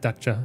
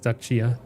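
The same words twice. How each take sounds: First: The 'i' sound before the final vowel is dropped. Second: The 'i' sound before the final vowel is heard. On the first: The speaker calls it wrong. "I guess I didn't say the I. I just said Dacia" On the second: The speaker calls it right. "and that's Dacia"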